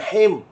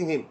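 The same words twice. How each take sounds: First: The syllable is said with a thick, heavy sound. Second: The syllable is said with a thin, light sound. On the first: The speaker calls it wrong. "bukan him" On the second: The speaker calls it right. "penting him"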